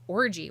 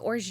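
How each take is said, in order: First: The word ends with a clear 'ee' vowel. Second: The word ends on a 'j' sound, no vowel. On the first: "the name of the band is Orgy" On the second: "I think it's pronounced like orge"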